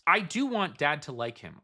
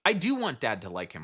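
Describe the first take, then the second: First: The sentence is read at a slower pace. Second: The sentence is read at a quicker pace.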